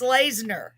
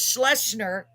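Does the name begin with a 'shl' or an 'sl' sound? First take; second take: sl; shl. First: The name starts with 'sl' and has 'zener'. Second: The name starts with 'shl' and has 'singer'. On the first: The speaker calls it right. "but it's Slazener" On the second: The speaker calls it wrong. "I said it was Schlesinger"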